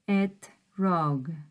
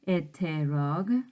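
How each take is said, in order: First: No vowel is heard between t and r. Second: An extra vowel is heard between t and r. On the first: The speaker calls it right. "I just said etrog" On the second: The speaker calls it wrong. "Notice how I don't say eterog"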